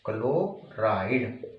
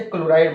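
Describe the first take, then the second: First: chloride drawn out slowly and softly; slow dictation. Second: Said in the usual way. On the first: Shown as a demonstration. Teacher dictating to students, repeats chloride slowly and softly. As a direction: spell out chloride slowly for notes. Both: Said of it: "इसे chloride बोलेंगे".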